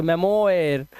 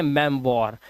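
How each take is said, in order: First: मेमोयर misread with an oy sound, "me-mo-yer"; questioning, literal reading of मेमोयर; wrong oy pronunciation. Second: मेमवॉर with oi turned to w, "mem-waar"; lower, firm model of मेमवॉर; correct wa pronunciation. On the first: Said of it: "नहीं, इसे पढ़ते हैं मेमवॉर". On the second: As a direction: say मेमवॉर in two beats, mem then waar. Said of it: "इसे पढ़ते हैं". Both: Shown as a demonstration.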